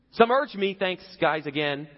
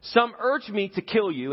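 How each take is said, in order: First: Higher, louder dig at his men; sarcastic aside. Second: Said in the usual way. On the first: Retold or imitated. David needling his own men mid-speech, higher sarcastic aside. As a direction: throw a sarcastic jab over your shoulder. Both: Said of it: "he looks back at his guys like".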